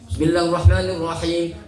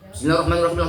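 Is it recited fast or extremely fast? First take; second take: fast; extremely fast. First: It is recited fairly fast, lengths kept. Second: It is recited extremely fast, lengths lost.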